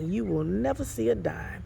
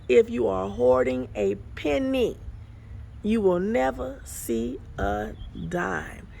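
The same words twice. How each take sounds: First: Said in the usual way. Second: Slowed down. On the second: Shown as a demonstration. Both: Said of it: "let me say that slow".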